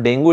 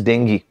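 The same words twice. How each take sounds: First: "dengue" said as DENG-goo; wrong pronunciation. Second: "dengue" said as DENG-ghee; correct pronunciation. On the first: Teacher showing students the mistaken pronunciation, "dengue" as DENG-goo. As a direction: end "dengue" on a goo sound. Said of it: "pronunciation of this word is not". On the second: Teacher correcting the word for students, "dengue" as DENG-ghee. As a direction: end "dengue" on a ghee sound. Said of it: "the pronunciation of this word". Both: Shown as a demonstration.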